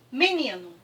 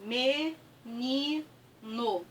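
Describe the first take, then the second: First: Said in the usual way. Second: "menino" very slow and soft, me... ni... no; syllable by syllable. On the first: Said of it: "se eu pegar aqui a palavra". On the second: Shown as a demonstration. Teacher spelling out the word as she writes, syllable by syllable. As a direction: draw "menino" out in three separate syllables. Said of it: "Escrevi aqui".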